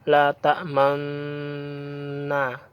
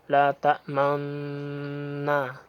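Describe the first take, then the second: First: Lips round only at the very end. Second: Lips round briefly during the middle syllable. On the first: "jadi monyongnya itu hmm, di akhir" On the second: "dengan bibir dihimpun maju seraya ditahan sejenak ketika mengucapkan lapas man, sehingga seperti terdengar bunyi la ta'maunna"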